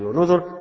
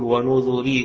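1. الكلمة تنتهي بحرف الراء الساكن. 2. الكلمة تنتهي بياء مدّ طويلة. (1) "بالسكون على الراء الساكنة" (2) "ويعقوب يقول ونذري إذا وقف عليها"

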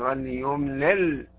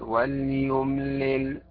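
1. تنتهي اللام الأخيرة بقلقلة. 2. تنتهي اللام الأخيرة بوضوح دون قلقلة.

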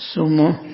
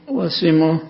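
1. الحركة الأولى صوت 'u'. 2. الحركة الأولى صوت 'i'. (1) "بالضم" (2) "والكسر"

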